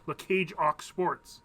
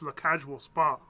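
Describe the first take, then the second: First: The name is said with an English accent. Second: The name is said with a French accent. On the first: "So in English, you'd say" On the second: "when you say it with the French accent"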